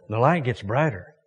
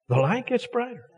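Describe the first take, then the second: First: Said in the usual way. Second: Lifted high and gentle on gets; higher, softer repeat. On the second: Shown as a demonstration. Pastor repeats the line high to the congregation, lifted and soft.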